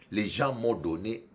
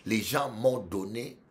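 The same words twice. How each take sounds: The two takes are said the same way.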